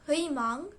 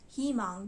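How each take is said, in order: First: The first vowel is a full 'ui' glide. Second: The first vowel is a plain 'ee' sound. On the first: This is the careful, spelled form. "is supposed to be pronounced as" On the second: This is how people say it in fast speech. "is pronounced as himang because people in Korea talk really fast and the a gets just dropped out"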